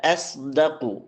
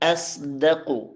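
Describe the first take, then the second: No difference in how they are said.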